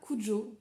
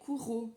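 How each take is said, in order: First: The j is a soft French j sound. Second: The j is a throaty Spanish j sound. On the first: It is the familiar pronunciation from the film. "J'ai toujours prononcé ça Cujo, comme dans le film" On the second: It follows the name's Spanish origin. "de consonance espagnole, donc ce qui donnerait Kuro"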